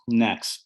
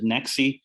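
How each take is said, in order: First: The name ends on the x sound. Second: The name ends with an added ee vowel. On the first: "it was supposed to be Nex" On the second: "a lot of people pronounce it Nexi"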